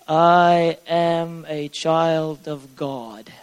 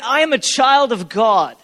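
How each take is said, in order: First: It is said flatly, without emotion. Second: It is said with strong emotion.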